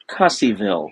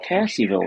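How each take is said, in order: First: The first vowel sounds like the vowel in cut. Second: The first vowel sounds like the vowel in cat. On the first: This is how the automated voice mispronounces it. The speaker calls it wrong. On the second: This is the pronunciation people would expect. The speaker calls it right. "Normally you'd think of"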